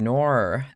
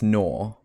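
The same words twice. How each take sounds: First: It is read in an American accent, with an r. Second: It is read in an Australian accent, without an r. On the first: "if you read it with American accent, you read nor" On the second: "In an Australian accent, when you read N A N A U R ... You read it as nor"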